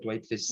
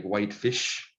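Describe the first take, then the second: First: Whitefish with a plain s, no sh sound; Cree accent whitefish. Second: Whitefish with a clear sh at the end; English whitefish. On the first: Teacher showing the class the Cree whitefish, with an s ending. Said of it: "that's how you gotta say it with a Cree accent". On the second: Teacher setting English whitefish against the Cree way, with a clear sh. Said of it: "We don't have that sh sound". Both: Shown as a demonstration.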